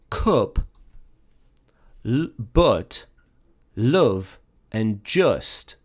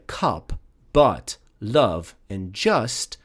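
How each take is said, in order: First: The vowels sound like a northern English accent. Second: The vowels sound like standard southern English.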